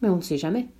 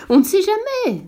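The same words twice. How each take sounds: First: Said in the usual way. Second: Much higher, louder pompous echo; the geographer seizes on the prince's words, pompous; geographer's echo. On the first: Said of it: "dit le petit prince". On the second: A narrator's reading. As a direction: repeat it with grand importance. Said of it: "dit le géographe".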